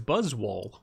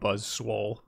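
First: No extra s sound comes before wole. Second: An extra s sound comes before wole. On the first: The speaker calls it right. "but it's Buzzwole" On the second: The speaker calls it wrong. "I call him Buzzswole"

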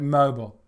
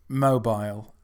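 First: The word is said with its final syllable cut short. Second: The word is said with its full final syllable. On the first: The speaker could not be bothered to finish the word. The speaker calls it wrong. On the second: The word was said completely, with care. The speaker calls it right.

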